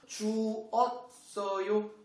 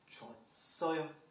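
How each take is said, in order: First: The two vowels are said as separate syllables. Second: The two vowels merge into one syllable.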